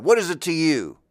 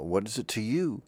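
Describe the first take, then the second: First: Higher, louder, challenging; a sharp rhetorical comeback; defiant snap. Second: Said in the usual way. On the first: Shown as a demonstration. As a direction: throw it back at them, confrontational. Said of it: "Oh, maybe I'd say it like that". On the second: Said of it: "maybe I'd say it like that".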